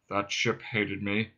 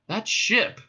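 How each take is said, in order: First: Low, slow robot drone; dejected. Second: High, rising question; sudden excitement. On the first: Marvin indicates the police craft, dejectedly. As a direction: let it sink in glum monotone. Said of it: "he said dejectedly". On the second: Ford reacts to Marvin's police craft remark, sudden excitement. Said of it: "said Ford in sudden excitement". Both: Acted.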